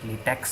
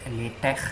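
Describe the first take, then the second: First: The word ends in a 'ks' sound, like rubber. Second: The word ends in a throaty, breathy fricative sound. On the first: The speaker calls it wrong. "that would be really wrong because it's not latex, the rubber" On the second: The speaker calls it right. "It's the sound of high in Latin or he in Arabic"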